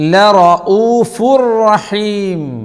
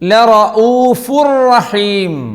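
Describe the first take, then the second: Both takes have the same delivery.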